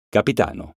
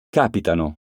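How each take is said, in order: First: Capitano said as capiTAno, the a of TA stressed. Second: Capitano said as CApitano, first syllable stressed. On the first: Teacher contrasting homographs for pupils, capiTAno stressed. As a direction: lean on TA of Capitano. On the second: Teacher contrasting homographs for pupils, CApitano stressed. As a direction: hit CA in Capitano. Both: Shown as a demonstration. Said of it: "Eccone alcuni esempi".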